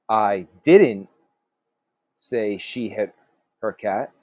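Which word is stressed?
didn't. The stress falls on the word didn't. The speaker denies having said it. "So maybe you said something something different"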